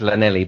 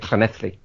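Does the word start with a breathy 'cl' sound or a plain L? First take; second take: plain L; breathy cl. First: The word starts with a plain L sound. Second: The word starts with a breathy 'cl' sound. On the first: "phonetically, it's Llanelli" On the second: "but they say it Clanethly"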